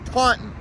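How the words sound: The second syllable has a short 'i' vowel. The speaker calls it right. "take the O out and replace it with an I"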